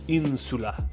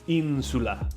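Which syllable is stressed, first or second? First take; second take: first; first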